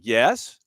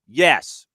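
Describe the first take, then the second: First: It is said uncertainly, like a question. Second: It is said firmly and with authority.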